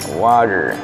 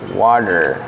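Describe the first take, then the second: First: The r at the end is light. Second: The same.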